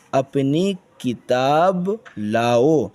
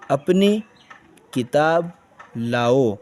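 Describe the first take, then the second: First: Said in the usual way. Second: اپنی کتاب لاؤ read one word at a time with pauses; اپنی ... کتاب ... لاؤ with a pause after each word. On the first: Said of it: "teacher reads sentence whole". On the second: Shown as a demonstration. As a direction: read each word separately, like a child learning.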